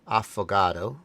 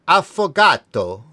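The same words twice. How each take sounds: First: The t is flapped, sounding like a d. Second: The t is a crisp, clear t sound. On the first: The speaker calls it wrong. "I shouldn't flap the T" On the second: The speaker calls it right. "the T is a T, not a D"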